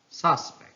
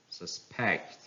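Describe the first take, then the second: First: "suspect" as SUS-pect, high start; stress on first syllable. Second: "suspect" as sus-PECT; stress on second syllable. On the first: Teacher reading a noun, "suspect" stressed on SUS. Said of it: "stress on the first syllable". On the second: Teacher reading a verb, "suspect" stressed on PECT. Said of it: "stress falls on the second syllable". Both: Shown as a demonstration.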